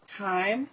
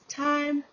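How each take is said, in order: First: The vowel glides as a diphthong. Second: The vowel is flattened into one sound.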